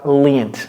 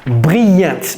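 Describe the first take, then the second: First: It is said the English way, English r. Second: It is said the French way, French r. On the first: The speaker calls it right. "C'est br" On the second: The speaker calls it wrong. "Quelqu'un va dire brillante"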